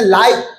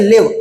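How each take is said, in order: First: The vowel is a long 'eye' sound. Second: The vowel is a short 'it' sound. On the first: It describes something happening in real time. "कभी कभार प्रोनाउंसिएट करते हैं लाइव" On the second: It means to reside somewhere. "कभी कभार प्रोनाउंसिएट करते हैं लिव"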